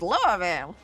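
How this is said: It is said in a Kentucky accent. This is how locals in Kentucky say it. "If you want to say it with a Kentucky accent"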